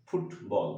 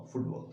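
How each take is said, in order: First: ফুটবল split into two beats, ফুট and বল; syllable by syllable. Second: Said in the usual way. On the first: Shown as a demonstration. (ফুটবল দুই সিলেবলে ভেঙে উচ্চারণ) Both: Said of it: "two syllabic word".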